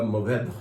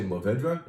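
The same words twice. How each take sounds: First: Mourvedre with the final "dre" just breathed, almost silent; last syllable breathed out. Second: Mourvedre with the final "dre" fully sounded; full final syllable. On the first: Wine shop owner teaching customers the name, last syllable breathed out. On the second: Wine shop owner showing customers the wrong way, all three syllables said. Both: Shown as a demonstration. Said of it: "you breathe out the last one".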